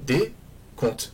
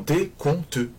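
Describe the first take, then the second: First: The final e is silent, two syllables. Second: The final e is pronounced, three syllables. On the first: The speaker calls it right. "ça va donner des comptes" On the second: The speaker calls it wrong. "Je ne vais pas le couper en décompteux. Personne ne prononce ce E"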